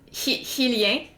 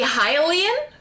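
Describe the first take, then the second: First: The word is said with a French pronunciation. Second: The word is said with an English pronunciation. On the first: "we were speaking in French. So we would pronounce it Hilien" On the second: "it's supposed to be Hylian"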